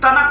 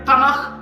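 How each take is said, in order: First: The word ends with a hard k sound. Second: The word ends with a raspy kh sound. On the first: "काफ की आवाज" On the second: "खे की आवाज निकालता है"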